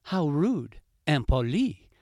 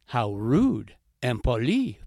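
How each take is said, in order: First: "How rude, impoli" in the fox's indignant voice; offended fox. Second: Annoyed heron. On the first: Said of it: "thought La Renarde". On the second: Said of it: "thought Le Héron". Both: Acted.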